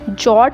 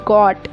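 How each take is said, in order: First: The word begins with a J sound. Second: The word begins with a G sound. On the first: The speaker calls it wrong. "यहाँ पर मैं इसको जॉट नहीं पढ़ूंगी" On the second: The speaker calls it right. "इसको मैं पढ़ूंगी गॉट"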